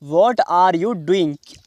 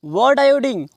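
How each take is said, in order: First: Slow, word-by-word "What are you doing"; slow model question. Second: Said in the usual way. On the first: Shown as a demonstration. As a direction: space out each word for learners. Teacher repeats the question word by word. (धीरे-धीरे, एक-एक शब्द अलग)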